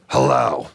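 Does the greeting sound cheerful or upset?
upset. The greeting sounds upset and grumpy.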